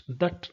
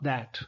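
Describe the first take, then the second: First: THAT reduced, short uh vowel like "thut"; weak-form THAT. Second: THAT with an open a as in "cat"; full-vowel THAT. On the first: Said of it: "that, not that". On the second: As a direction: give THAT its strong, full vowel. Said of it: "not that". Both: Shown as a demonstration.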